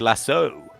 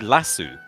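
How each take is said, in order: First: It is said with an American pronunciation. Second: It is said with a British pronunciation. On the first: "Americans, they say lasso" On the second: "us U K boys, we say lasso"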